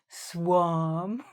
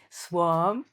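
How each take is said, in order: First: The word is drawn out slowly and exaggerated. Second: The word is said at a natural speed.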